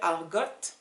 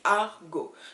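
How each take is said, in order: First: The final T is pronounced at the end. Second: The final T is silent at the end. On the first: The speaker calls it wrong. "don't pronounce the last T. So I don't want to hear argot" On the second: The speaker calls it right. "It's argot"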